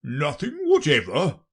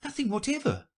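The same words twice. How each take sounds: First: Loud, higher incredulous question; insistent royal voice, rising at the end; persistent king. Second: Put-on very high girlish reply; high, unforced storybook girl voice; young Alice. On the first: Acted. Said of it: "persisted the king". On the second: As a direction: answer as little Alice, high-pitched. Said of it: "said Alice".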